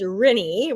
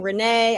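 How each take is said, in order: First: The name is said rhyming with Minnie. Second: The name is said not rhyming with Minnie. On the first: The speaker calls it right. "rhymes with Minnie" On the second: The speaker calls it wrong. "People get really creative"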